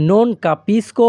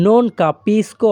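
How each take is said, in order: First: Said in the usual way. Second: Very slow, non capisco drawn out clearly; slow teaching demo. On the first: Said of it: "অথবা আপনারা শুধু". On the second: Shown as a demonstration. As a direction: spell out non capisco slowly for learners. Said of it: "তাহলে Italian ভাষা". (non capisco ধীরে ধীরে স্পষ্ট করে)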